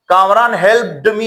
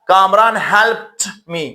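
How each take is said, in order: First: The verb ends with a d sound. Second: The verb ends with a t sound. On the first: The speaker calls it wrong. "ये गलत होगा।" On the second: The speaker calls it right. "तो हम इस डी को ट pronounce करेंगे। तो इस तरह हम कहेंगे"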